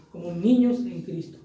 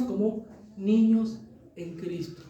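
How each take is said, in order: First: Said in the usual way. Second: "niños" stretched out slowly; slow, stressed niños. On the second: Shown as a demonstration. Preacher to the congregation, slow stressed "niños". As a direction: linger on "niños en Cristo". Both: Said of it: "¿sabe cómo qué, hermanos?".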